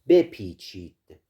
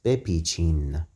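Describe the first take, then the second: First: The word ends with a d sound. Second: The word ends with an n sound. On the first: This is the formal form. "The plural form of the imperative verb is" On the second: This is the informal form. "The informal way to say it is"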